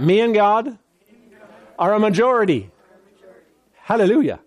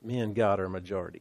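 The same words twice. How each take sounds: First: Bold declaration to the congregation; proclaiming. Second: Murmured fast to yourself, much softer; hushed, rapid affirmation; quiet, quick repeat. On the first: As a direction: say it out like a confession of faith. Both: Shown as a demonstration. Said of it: "Say that".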